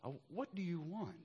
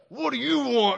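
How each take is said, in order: First: It is said in a gentle, reflective tone. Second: It is said in a gruff, demanding tone.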